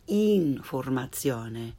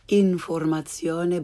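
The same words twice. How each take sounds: First: The i vowel is tense, like English 'ee'. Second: The i vowel is lax, like English 'ih'. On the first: The speaker calls it right. "but informazione" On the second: The speaker calls it wrong. "Not informazione"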